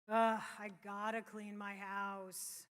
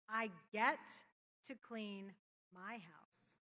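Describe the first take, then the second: First: It sounds reluctant and grudging. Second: It sounds eager and positive.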